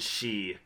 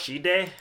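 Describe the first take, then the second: First: The word ends with a vowel sound. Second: The word ends with a 'd' sound. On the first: The speaker calls it right. "the last word is pronounced she" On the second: The speaker calls it wrong.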